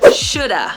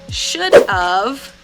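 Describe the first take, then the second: First: The word 'of' is reduced to 'uh'. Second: The word 'of' is said in full. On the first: "we say shoulda" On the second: "instead of saying should of"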